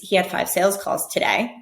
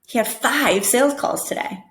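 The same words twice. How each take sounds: First: The strongest stress falls on the word today. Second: The strongest stress falls on the word five. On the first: This is simply what happened today. "instead of focusing on today" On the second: The number of calls is impressively large. "I'm putting the emphasis on five"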